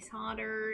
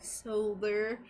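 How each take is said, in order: First: It is said the American way, without an l. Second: It is said the British way, with an l.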